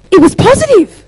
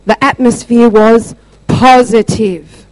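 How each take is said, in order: First: Very high, loud put-on voice; hammed-up high-pitched exclamation; squeaky imitated answer. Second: Slow, deliberate restatement in own voice; measured, louder emphasis; emphatic retelling. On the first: Acts out depressed woman's perky answer. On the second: Retold or imitated. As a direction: spell it out slowly, weighting each word. Repeats her answer slowly for emphasis.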